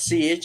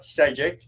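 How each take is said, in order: First: The surname is one syllable with an ee vowel. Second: The surname is spoken with two syllables. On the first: "It is not Siege" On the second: "It's not Sejic"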